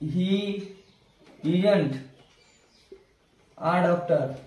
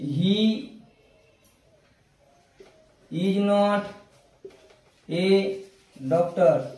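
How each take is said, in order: First: Is not is shortened into one syllable. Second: Is not is said as two full words.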